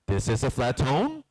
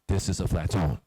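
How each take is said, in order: First: The pitch rises at the end. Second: The pitch falls at the end. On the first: "either you go up" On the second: "either you go down"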